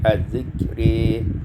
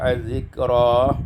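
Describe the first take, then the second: First: The final vowel after r is fronted toward e. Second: The final vowel after r is an open a.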